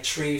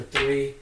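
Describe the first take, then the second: First: "tree" for three, hard t in place of th; ignorant pronunciation. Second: Said in the usual way. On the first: Shown as a demonstration. Showing friends the dialect, "tree" with t for th. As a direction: say three as "tree", plain t at the front. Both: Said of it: "like, tree for three".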